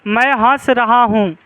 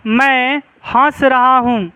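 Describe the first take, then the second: First: Said in the usual way. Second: Slow and clear, word by word, for the class to write down; slow classroom dictation. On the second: Shown as a demonstration. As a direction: dictate it slowly so they can write. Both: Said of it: "जैसे लिखो".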